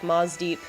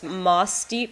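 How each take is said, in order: First: The middle consonant sounds like a Z. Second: The middle consonant is a soft S sound. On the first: "with a harder S sound, more like the Z sound" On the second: "the way it's spelled"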